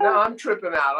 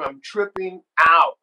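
First: Said in the usual way. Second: "out" punched louder and drawn out; slow down and hit "out" hard; stress on OUT. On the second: Retold or imitated. Fan hears idol sing his song, OUT stretched. Repeats it for emphasis.

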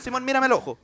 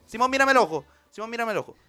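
First: Said in the usual way. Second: Mírame el ojo drawn out very slowly; slow deliberate plea. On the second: Acted. Negotiator repeats the plea to Simón, very slow. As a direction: stretch every word of the plea. Same words again, slowed.

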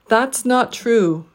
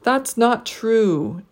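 First: Slow That's not true, not prominent, true falling; each word stressed, pitch drops on true; slow stressed That's not true with a final fall; three-beat phrase. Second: That's, not, true each stressed slowly, true jumping up; slow That's not true with a pitch jump on true; deliberate three-beat That's not true; three stressed words. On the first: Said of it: "The last word will get a pitch jump, but we'll also need a pitch drop". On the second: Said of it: "The last word will get a pitch jump". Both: Shown as a demonstration.

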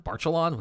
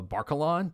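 First: Barcalon said with a ch sound, "bar-cha-lon", a little higher; second try at the name with a CH: Barcalon. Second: Barcalon said with a hard k sound, "bar-ka-lon". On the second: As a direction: try the name with a K in the middle: Barcalon. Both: Shown as a demonstration. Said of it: "however you pronounce her name".

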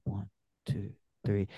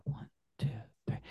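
First: Hushed count. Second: Whispered count. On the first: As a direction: count low and soft, almost breathed. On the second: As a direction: whisper "two, three" with no voice. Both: Shown as a demonstration. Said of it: "And I'll do that".

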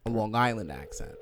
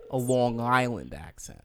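First: Said in the usual way. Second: Slower, stretched Long Island vowels; Long Island accent. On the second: Shown as a demonstration. Host describing her friend's speech, Long Island accent. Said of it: "she has a, a Long Island accent".

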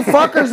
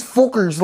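First: Said in the usual way. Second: "fuckers" with an Irish oo vowel; imitated Irish pronunciation, "fookers"; Irish accent. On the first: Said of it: "if I say fuckers". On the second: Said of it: "how come the way he says things".

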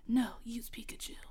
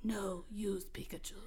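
First: Whispered faraway voice, no tone; distant voice. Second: Soft whispered distant voice. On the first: Redoing the voice line as a distant whisper. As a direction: breathe it from far off. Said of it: "it's like a distant voice". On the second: The mysterious voice tells Nash, a distant whisper. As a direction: whisper it like a far-off voice. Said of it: "but the voice said". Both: Acted.

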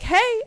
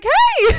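First: High, loud greeting; calling out. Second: Very high, loud squeal; squealing hey. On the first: Fan greeting the far-off actress, high and loud. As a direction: call across the room. Escalating hey exchange. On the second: Actress squealing back at the fan, very high and loud. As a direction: squeal it out, overexcited. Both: Retold or imitated.

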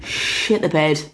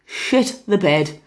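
First: Said in the usual way. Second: Slow, drawn-out "Shit the bed"; slow panicked repeat. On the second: Retold or imitated. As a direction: stretch out "Shit the bed" in dread. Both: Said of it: "we were just like".

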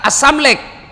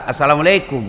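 First: "Assalamualaikum" squashed to "assamlek", pitched higher; slurred youth greeting. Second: Said in the usual way. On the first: Retold or imitated. Student greeting his teacher, "Assalamualaikum" mockingly shortened to "assamlek". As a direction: call "Assalamualaikum" cut down to three syllables, "as-sam-lek". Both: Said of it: "Apalagi itu Assalamualaikum anak muda".

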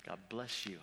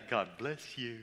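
First: Soft, sincere God bless you; genuine blessing. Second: God bless you with a snide edge; sarcastic blessing. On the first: Employee blessing the hostile boss, sincere and soft. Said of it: "I said it in a very genuine way". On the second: Employee mocking the boss with a snide God bless you. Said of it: "I didn't say it in a". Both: Shown as a demonstration.

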